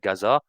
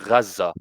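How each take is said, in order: First: The name is said with French pronunciation. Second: The name is said with Arabic pronunciation. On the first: "en français, ça serait Gaza" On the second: "je suis natif libanais, donc ça me serait plus simple pour moi de dire Gaza"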